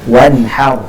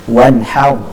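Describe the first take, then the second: Both takes have the same delivery.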